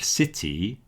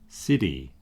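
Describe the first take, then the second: First: The middle consonant is a clear T. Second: The middle consonant is a quick flap.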